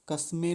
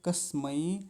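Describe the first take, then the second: First: The final vowel sounds like e. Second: The final vowel sounds like ai. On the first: The speaker calls it wrong. "कस्मे नहीं बोलेंगे" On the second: The speaker calls it right.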